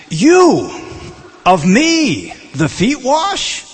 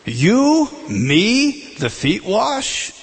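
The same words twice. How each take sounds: First: High, loud, slow and halting; each word pushed out high with a rising wash; literal word order. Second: High, halting, slow rise on wash; literal word order. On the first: Preacher rendering Peter's Greek literally, high halting rise. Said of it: "The first two words is". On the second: Preacher repeating Peter's literal question, high halting rise. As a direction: spell the words out one by one. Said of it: "The first two words is "you and me". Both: Shown as a demonstration.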